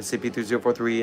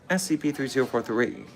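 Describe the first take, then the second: First: It is said quickly, rushed along. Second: It is said slowly, at normal pace.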